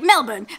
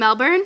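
First: It is said in a local Australian accent. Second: It is said in an American accent. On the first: This is how the locals say it. "they're like Melbourne" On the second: This is how an American would say it. "how do you say it in like an American accent? I don't know. I think Melbourne"

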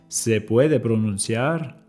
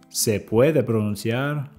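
Both takes have the same delivery.

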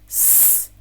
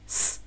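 First: The s sounds are repeated at a slower pace. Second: The s sounds are repeated at a faster pace.

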